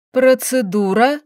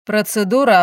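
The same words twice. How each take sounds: First: Процедура? echoed in disbelief, rising at the end; stunned question. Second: Said in the usual way. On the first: A narrator's reading. Wife to husband hearing the plan: Процедура? slow, rising. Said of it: "пробормотала я". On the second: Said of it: "нехотя выдавил".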